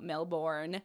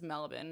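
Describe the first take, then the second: First: Every sound of the name is said clearly. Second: Some sounds of the name are dropped loosely. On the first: The speaker calls it wrong. "not Melbourne" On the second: The speaker calls it right. "Melbourne is just Melbourne"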